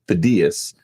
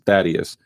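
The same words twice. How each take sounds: First: The name is said the Greek way. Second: The name is said the non-Greek way.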